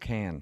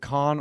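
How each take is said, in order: First: The vowel is flat, like in 'can'. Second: The vowel is open, like in 'con'. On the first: "the pronunciation, is it con or can?" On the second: "the pronunciation, is it con or can?"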